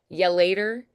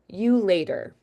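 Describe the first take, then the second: First: The word 'you' is reduced to 'ya'. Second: The word 'you' is said fully and clearly. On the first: The farewell is casual. "So casual" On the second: The farewell is more formal. "and then more formal"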